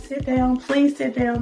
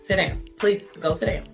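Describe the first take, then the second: First: It is said quietly and gently. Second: It is said firmly and sternly.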